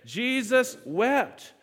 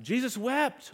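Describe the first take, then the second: First: Very slow, drawn out, a touch louder; Jesus wept, said slowly with weight; slow emphatic recitation. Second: Said in the usual way. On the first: Shown as a demonstration. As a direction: stretch both words for the room to echo. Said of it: "Let's say that together again". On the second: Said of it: "What does that verse say about Jesus?".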